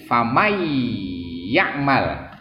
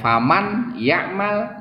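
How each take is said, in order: First: The n merges into the following y. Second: The n is pronounced before the y. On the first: This is the form after assimilation. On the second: This is the underlying form before assimilation.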